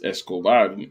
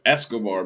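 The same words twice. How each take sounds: First: The stress falls on the last syllable. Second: The stress falls before the last syllable. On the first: This is how it is said in Spanish. The speaker calls it right. "it's Escobar in Espanol" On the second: This is how it is said in American English. The speaker calls it wrong. "Americans be saying Escobar because that's how we would say it in America"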